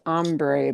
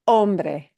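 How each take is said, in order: First: The word is said with an English-style accent. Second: The word is said with a Spanish accent. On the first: The speaker calls it wrong. "you hear this pronounced as hombre, but it is that is wrong" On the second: The speaker calls it right. "This is pronounced hombre"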